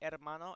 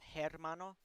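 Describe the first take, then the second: First: The word begins directly with a vowel sound. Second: The word begins with an audible h sound. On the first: "I said hermano" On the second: "instead of hermano"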